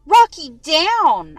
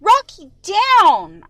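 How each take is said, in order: First: Slow, loud stern order to the dog; firm and slow, make the dog obey; stern command. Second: Loud, higher yell at the dog. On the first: Owner ordering the jumping dog down, stern and slow. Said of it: "I say sternly". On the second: Owner yelling at the dog a second time, loud. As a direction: shout it so the dog finally listens. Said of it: "I yell again". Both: A narrator's reading.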